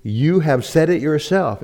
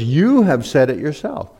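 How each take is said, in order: First: Said in the usual way. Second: YOU stretched out high and loud; pointed, accusing weight on YOU; stress on YOU. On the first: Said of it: "And the N A S B reads". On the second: Shown as a demonstration. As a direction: lean hard on the opening YOU. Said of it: "That was her point".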